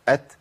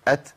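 First: The final consonant is released with audible breath. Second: The same.

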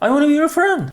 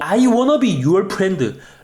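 First: The words are mumbled and slurred together. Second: The words are articulated plainly and distinctly.

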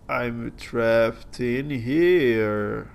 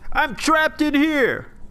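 First: It is said plainly, in a normal tone. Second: It is said in an exaggerated, terrible tone.

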